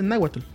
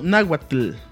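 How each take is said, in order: First: The final 'tl' sound is light and soft. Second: The final 'tl' sound is strongly marked. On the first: The speaker calls it right. "para México uno dice náhuatl" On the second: The speaker calls it wrong. "y no náhuatl, bien marcado"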